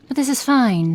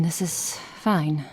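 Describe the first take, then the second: First: Strained high exasperation; clearly fed up, pitched up; exasperated, high and loud. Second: Resigned. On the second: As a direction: let it go, slowly. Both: Acted. Exasperated then resigned repeat.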